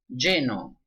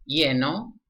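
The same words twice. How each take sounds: First: The first consonant sounds like English sh. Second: The first consonant sounds like English y.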